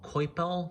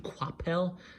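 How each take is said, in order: First: The name is said the usual English way. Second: The name is said the French way. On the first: The speaker calls it wrong. "A lot of people call him Coipel" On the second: The speaker calls it right. "the French pronunciation should be Coipel"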